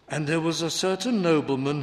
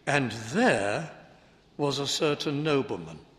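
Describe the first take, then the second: First: The word 'there' is unstressed. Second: The word 'there' is stressed. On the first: It simply introduces a new person. The speaker calls it right. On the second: The person was in the place just mentioned. The speaker calls it wrong.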